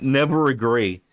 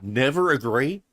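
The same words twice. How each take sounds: First: Flat, falling, louder mock of never agree; mocking repeat. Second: Rising, disbelieving repeat of never agree; incredulous echo. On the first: Mocking the coach's rule back at him. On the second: Echoing the coach's rule in disbelief. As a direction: question it like it's absurd. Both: Real, not acted. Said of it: "What are you talking about?".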